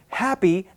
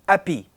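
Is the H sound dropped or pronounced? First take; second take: pronounced; dropped. First: The H at the start is pronounced. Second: The H is dropped, French-accent style.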